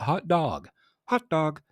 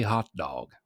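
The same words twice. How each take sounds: First: Higher mock hot dog. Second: Said in the usual way. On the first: Shown as a demonstration. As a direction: bounce hot dog up like dad.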